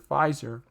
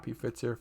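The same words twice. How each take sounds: First: Said in the usual way. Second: "P Pfizer" pronounced pee-FITS-er, thrown away softly; "P Pfizer" with separate P, then "fitser"; alternative pronunciation. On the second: Real, not acted. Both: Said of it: "however you wanna go ahead and, uh, pronounce it".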